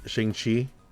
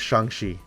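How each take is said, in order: First: The name is said with English-like sounds. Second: The name is said with Chinese-like sounds. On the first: This is how audiences usually say it. The speaker calls it wrong. "we pronounce it" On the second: This is the character's real name. The speaker calls it right. "no, it's actually it's"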